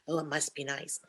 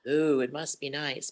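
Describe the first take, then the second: First: It is said in her natural voice. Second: It is said in a put-on accent.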